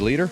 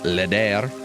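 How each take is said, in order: First: The name sounds like 'leader'. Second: The name sounds like 'leder', a posh form. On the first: "I think it's definitely supposed to be leader" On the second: "you could be posh and pronounce it leder"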